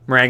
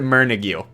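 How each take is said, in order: First: It is said as the dessert name, meh-rang. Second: It is said as a misreading, mer-nig. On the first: The speaker calls it right. "Meringue like the dessert" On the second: The speaker calls it wrong. "I was gonna pronounce it Mernigue"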